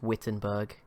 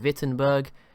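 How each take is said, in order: First: The name is said with an English pronunciation. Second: The name is said with a German pronunciation. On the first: "in English this is just Wittenberg" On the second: "in German it would be Wittenberg"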